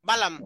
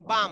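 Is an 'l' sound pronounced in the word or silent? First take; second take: pronounced; silent. First: An 'l' sound is pronounced in the middle. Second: No 'l' sound is pronounced in the middle. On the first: The speaker calls it wrong. "এটা বালাম উচ্চারণ না" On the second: The speaker calls it right. "অথচ এটা উচ্চারণ হলো বাম।"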